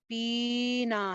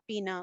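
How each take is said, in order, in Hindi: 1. पहला स्वर अति-दीर्घ खींचा गया है। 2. पहले स्वर की लंबाई सामान्य है। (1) "हम ये तो नहीं कहते" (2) "नॉर्मल जितना"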